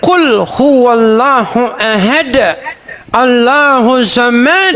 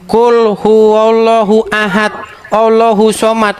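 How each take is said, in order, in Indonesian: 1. Dibaca dengan lafal gaya Arab. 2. Dibaca dengan lafal gaya Indonesia yang biasa. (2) "Saya bacanya begini"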